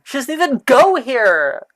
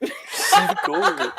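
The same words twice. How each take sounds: First: Movie quote shout. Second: High, slow mocking line. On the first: Retold or imitated. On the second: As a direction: squeal it like a teen movie. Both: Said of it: "That's Gemma if she knew".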